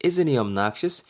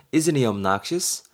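First: Slow repeat. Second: Very slow, clear question; slow example read. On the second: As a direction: read it slowly for students. (천천히 예문 읽기) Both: Shown as a demonstration. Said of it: "B가 뭐라 그래요".

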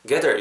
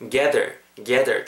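First: Said in the usual way. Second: GATHER with a drawn-out "ae"; lengthened vowel. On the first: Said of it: "요것도 좋지만". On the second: Shown as a demonstration. Teacher modelling for learners, "gather" with long "ae". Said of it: "좀 길게 발음한다".

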